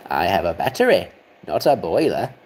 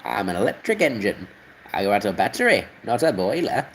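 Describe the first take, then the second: First: Lower, steadier engine voice; better engine impression. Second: Lightly voiced engine, near his own voice; a hint of a proud little engine; engine impression. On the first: Engine explaining it runs on batteries, lower and steadier. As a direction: settle it down low like a proud engine. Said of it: "Okay, that's better". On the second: Engine explaining it runs on batteries, lightly voiced. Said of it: "Okay, that's a bit better".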